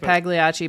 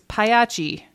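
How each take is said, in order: First: The name is said the common American way. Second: The name is said in a non-American way. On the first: This is how most people say it. The speaker calls it wrong. "every American says it Pagliacci" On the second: This is the family's own pronunciation. The speaker calls it right. "that's how you say it"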